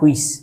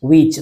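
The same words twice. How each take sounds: First: The word begins with an h sound before w. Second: The word begins with a plain w sound. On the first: The speaker calls it wrong. "Not হুইচ" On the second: The speaker calls it right. "একটু আগে বলেছি উইচ"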